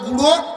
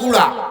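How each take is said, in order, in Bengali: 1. সাধারণ নিয়মে বলা হয়েছে, অনুনাসিক এবং 'o' দিয়ে শেষ। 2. চট্টগ্রামের উচ্চারণে বলা হয়েছে, 'a' দিয়ে শেষ। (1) "আমরা যেটা কোনো গুঁড়ো" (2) "ওরা কয় গুড়া"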